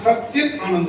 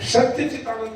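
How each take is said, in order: First: The first part is merged into one word, 'sachchit'. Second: The first part is split into 'satya' and 'chit'. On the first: The speaker calls it right. "तो यहाँ सचित आनंद है" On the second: The speaker calls it wrong. "सत्य चित आनंद नहीं है"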